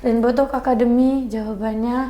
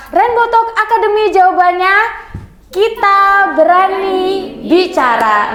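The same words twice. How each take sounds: First: Soft, low-key, listless reading; subdued, unenthusiastic intonation; low-energy delivery. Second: Higher-pitched, rousing slogan; spirited intonation. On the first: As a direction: say it quietly with no energy. Teacher demonstrates contrasting intonation. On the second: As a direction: call it out like a rallying chant, dropping on the last word. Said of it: "nah beda kan". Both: Shown as a demonstration.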